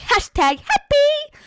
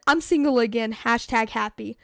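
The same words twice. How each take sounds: First: Very high, loud, drawn-out mockery; mocking squeal. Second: Said in the usual way. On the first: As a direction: squeal it slowly to ridicule her post. Mocking her post in silly voice.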